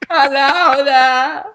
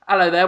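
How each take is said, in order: First: It is said in a Jersey Shore impression. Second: It is said in his normal voice.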